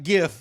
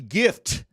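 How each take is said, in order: First: The final T sound is dropped. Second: The final T sound is clearly pronounced. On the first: The speaker calls it wrong. "Not gif" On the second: The speaker calls it right. "Pronounce that T"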